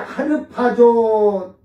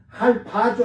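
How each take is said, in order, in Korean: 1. r 소리가 음절 하나를 따로 차지해서, 모두 네 개예요. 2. r 소리가 첫 음절을 닫아서, 모두 세 개예요. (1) "할 리을을 뭐 이렇게 하르파조 나눠도 되고" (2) "할파조 해도 돼요"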